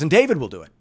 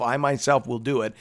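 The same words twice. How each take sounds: First: David punched louder with a falling tune; stress on David. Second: Myself leaned on, falling tune; stress on myself. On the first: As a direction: hit David as the surprise twist. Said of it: "And then he says". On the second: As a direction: press on myself as God's own promise. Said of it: "God kept saying". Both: Retold or imitated.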